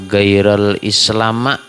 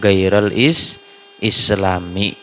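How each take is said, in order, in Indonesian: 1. Kata terakhir berakhir dengan vokal a. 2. Kata terakhir berakhir dengan vokal i. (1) "tadi bacaannya Henry tadi" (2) "harusnya bacaannya"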